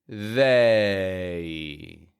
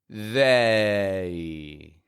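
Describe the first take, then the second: Both takes have the same delivery.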